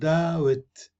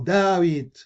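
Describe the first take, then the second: First: Both syllables carry equal weight, with no stress. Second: One syllable is stressed more than the other. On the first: The speaker calls it right. "نقول داوت. لها كل المقاطع لها نفس الوزن" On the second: The speaker calls it wrong. "لا نقول داويد أو داويد"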